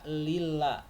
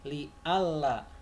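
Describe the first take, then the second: First: It is merged into one word, 'lilla'. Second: A separate 'alla' follows 'li' with a break. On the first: The particle 'an' is dropped. The speaker calls it wrong. "Tidak boleh dibaca lilla, nggak boleh ya" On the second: The particle 'an' is kept and made explicit. The speaker calls it right. "harus diizharkan, harus dijelaskan seperti ini"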